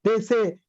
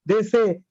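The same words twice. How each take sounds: Both takes have the same delivery.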